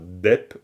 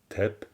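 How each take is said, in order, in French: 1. Le mot commence par un d sonore. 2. Le mot commence par un t aspiré. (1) "On dit pas dep" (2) "mais on dit tep"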